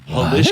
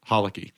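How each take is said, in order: First: The middle of the name has an 'sh' sound. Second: The middle of the name has a 'k' sound.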